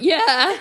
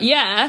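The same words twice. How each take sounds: First: The voice cracks with excitement. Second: The voice stays steady and calm.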